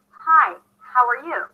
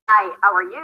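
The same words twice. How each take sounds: First: The h sounds are clearly breathed out. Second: The h sounds are weak or dropped. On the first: The speaker calls it right. "You say" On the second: The speaker calls it wrong. "You don't say"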